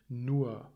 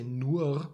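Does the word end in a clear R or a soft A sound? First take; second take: soft A; clear R. First: The word ends with a soft A-like vowel. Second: The word ends with a clearly pronounced R. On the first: The speaker calls it right. "It's almost like a soft A at the end" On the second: The speaker calls it wrong. "we don't say the R, we don't say nur"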